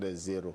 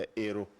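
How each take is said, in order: First: A z sound links into the second word. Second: The second word starts on a vowel, unlinked. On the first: It sounds like calling them zeros. The speaker calls it wrong. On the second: It means they are heroes. The speaker calls it right.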